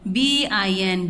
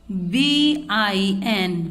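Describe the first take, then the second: First: Said in the usual way. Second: बीआईएन drawn out slowly, letters stretched; slow spelled-out blend. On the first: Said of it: "विन". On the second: Shown as a demonstration. Teacher spells बीआईएन slowly for the children. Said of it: "बी का sound होता है वा".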